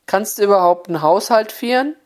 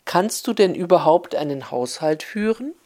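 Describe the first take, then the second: First: Mother-in-law in broad Oberhessian Platt, a bit raised; Oberhessian dialect. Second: Standard High German. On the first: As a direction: snap it out in village dialect. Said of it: "damit die Schwiegertochter es auch verstehen konnt". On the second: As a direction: spell it out in proper Hochdeutsch for the foreigner. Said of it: "sät sie es noch einmal auf Hochdeutsch". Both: Retold or imitated.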